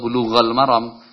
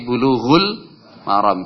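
First: The first word ends in an a vowel. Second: The first word ends in a u vowel. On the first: The speaker calls it wrong. "atau bulughal maram" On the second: The speaker calls it right. "tapi bulughul maram"

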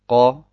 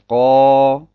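First: The vowel has a normal short length. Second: The vowel is drawn out long. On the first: It counts as a short vowel mark. "Qa ist eine Fatha" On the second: It counts as a long vowel with alif. "diese Fatha noch länger ziehe"

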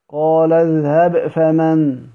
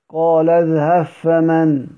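First: The b is pronounced clearly before the f. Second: The b merges completely into the following f. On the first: "إظهار" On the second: "إدغام"

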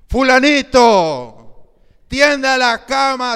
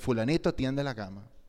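First: It is said in a raised, louder voice. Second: It is said in a calm, normal voice. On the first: The parent is losing patience. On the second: The parent is still asking patiently.

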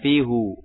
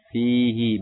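First: The word ends in an 'u' vowel. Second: The word ends in an 'i' vowel. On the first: The speaker calls it wrong. "bukan fihu" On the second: The speaker calls it right. "maka setelahnya kasroh, fihi"

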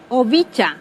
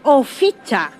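First: The middle consonant is a b or v sound. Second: The middle consonant is an f sound. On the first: This is how one regional group says it. "allí dicen oficha" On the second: This is how another regional group says it. "agregan la F en vez de la B"

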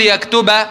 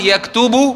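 First: The word ends with the vowel a. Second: The word ends with the vowel u.

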